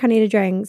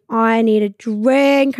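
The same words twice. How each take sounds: First: Said in the usual way. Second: Slow, stretched longing; drawn-out craving. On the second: Retold or imitated. In the lounge, slow and stretched, craving a drink. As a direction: drag the words out like you're desperate.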